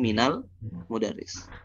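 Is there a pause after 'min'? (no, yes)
no. The words run together without a pause. "kalau disambung ... langsung minal mudarris"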